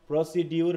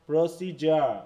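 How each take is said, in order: First: The middle consonant is a 'd' sound. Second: The middle consonant is a 'j' sound. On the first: The speaker calls it wrong. "প্রসিডিউর নয়" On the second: The speaker calls it right. "ডিজে হচ্ছে জ, প্রসিজার"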